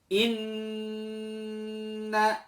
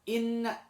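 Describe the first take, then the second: First: The nasal sound is held long and slow. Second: The nasal sound is cut short and quick. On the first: The speaker calls it right. "baca dengan gunnah yang terbaik" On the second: The speaker calls it wrong. "jangan inna, jangan terlalu e, cepat"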